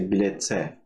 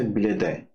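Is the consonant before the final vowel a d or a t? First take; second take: t; d. First: The consonant before the last vowel is a hard t. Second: The consonant before the last vowel is a soft d. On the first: The speaker calls it right. "we say bilete" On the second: The speaker calls it wrong. "we don't say bilede"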